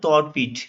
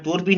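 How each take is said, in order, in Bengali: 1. প্রথম স্বরধ্বনিটি খোলা 'aw' ধ্বনি। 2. প্রথম স্বরধ্বনিটি বদ্ধ 'o' ধ্বনি। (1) "তর পিঠ বলা হয় উচ্চারণটা" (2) "মানে তোর পিঠ নয়"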